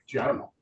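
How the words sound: It is said in a curt, dismissive tone. The listener is being brushed off. The speaker calls it wrong. "Now I'm just, I just brushed you off"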